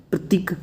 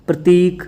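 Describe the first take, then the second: First: प्रतीक with a short, quick "tik". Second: प्रतीक with a long "teek". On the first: Teacher showing the error, short i in प्रतीक. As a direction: say प्रतीक as "pratik". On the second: Teacher correcting students, long ee in प्रतीक. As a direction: stretch the ee in प्रतीक. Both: Shown as a demonstration. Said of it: "बड़ी की मात्रा लग जाती है".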